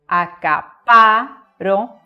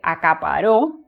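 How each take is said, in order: First: The stress is on the second-to-last syllable. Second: The stress is on the last syllable.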